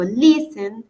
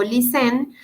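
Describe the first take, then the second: First: Listen punched on its first syllable, "LIS-en"; stress on first syllable. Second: Listen mis-stressed on its last syllable, "li-SEN"; stress on second syllable. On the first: English teacher shows students the correct way, listen stressed at the start. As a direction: hit LIS, let -en fall away. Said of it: "yo digo listen". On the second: English teacher shows students how not to say it, listen stressed on the final syllable. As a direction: say listen with the punch wrongly on -sen. La fuerza que se emite ... está al inicio y no al final. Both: Shown as a demonstration.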